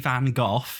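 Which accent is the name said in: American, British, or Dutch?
British. The name is said the British way. "British people say Van Gogh"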